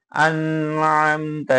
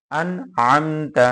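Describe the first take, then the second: First: আন Amta with the n and m held too long; overstretched, delayed আন Amta; wrongly drawn out. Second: আন Amta cut cleanly, without delay; distinct, unlingering আন, then Amta; each letter separate. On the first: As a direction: linger on the n of আন and the m of Amta. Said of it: "এরকম পড়া যাবে না". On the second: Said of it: "প্রতিটা হরফ কাটা কাটা". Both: Shown as a demonstration.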